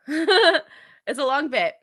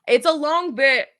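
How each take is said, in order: First: Slow, laughing repeat; drawn-out laughing remark. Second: Said in the usual way. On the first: Real, not acted. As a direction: chuckle it out slowly.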